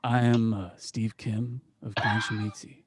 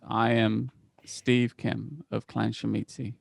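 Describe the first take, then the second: First: It is said in a put-on character voice. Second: It is said in the speaker's ordinary voice. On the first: The speaker calls it right. "Let's just roll it back" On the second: The speaker calls it wrong. "oh, I forgot to do the voice. Fuck it. Now he talks like me"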